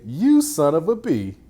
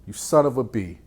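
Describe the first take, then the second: First: Higher, louder son of a B; mock angry insult. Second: Lightly teasing son of a B; mild jab. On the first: Coach showing the angry take of the same words. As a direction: spit it out like you mean it. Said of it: "or you could say". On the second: Coach showing the joking take of the same words. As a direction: toss it off casually. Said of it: "'Cause you could say". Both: Shown as a demonstration.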